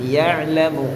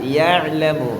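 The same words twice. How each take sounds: First: The throaty ain sound is clearly pronounced. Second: The throaty ain sound is clearly pronounced.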